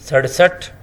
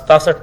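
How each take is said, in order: First: The middle consonant is a flapped r. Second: The middle consonant is a t sound. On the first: The speaker calls it right. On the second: The speaker calls it wrong.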